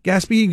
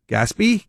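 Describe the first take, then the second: First: "Gaspee" as GAS-pee; stress on first syllable. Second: "Gaspee" as gas-PEE, rising; a questioning "Gaspee", weight on the end; stress on second syllable. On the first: Host offering the other pronunciation, GAS-pee. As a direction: put the weight up front in "Gaspee". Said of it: "which one is it?". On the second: Host asking which pronunciation is correct, gas-PEE. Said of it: "What's the correct pronunciation of Gaspee?". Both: Shown as a demonstration.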